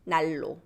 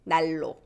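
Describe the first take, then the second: Both takes have the same delivery.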